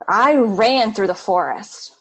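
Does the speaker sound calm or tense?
tense. It is said in a tense, urgent tone. Something was chasing the runner. "Maybe something was chasing you"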